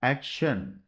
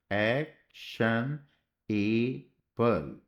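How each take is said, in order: First: Said in the usual way. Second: Drawn out slowly. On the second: Shown as a demonstration. Teacher writing action on the board, drawn out slowly. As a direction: stretch action out slowly, ending on a rise. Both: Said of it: "तो ये शन बीच में हो गया".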